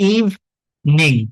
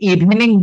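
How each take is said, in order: First: No vowel is heard between 'ev' and 'ning'. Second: A vowel is heard between 'ev' and 'ning'. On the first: The speaker calls it right. "এই ইটা উচ্চারণ হবে না" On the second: The speaker calls it wrong. "অনেকে আমরা এটাকে ইভিনিং বলে থাকি"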